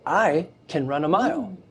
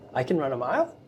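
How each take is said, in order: First: It is said firmly as a confident statement. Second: The pitch rises at the end like a question. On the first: The speaker believes it is possible. "say it with authority" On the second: The speaker doubts whether it is possible. "make it a question. Like do the inflection up"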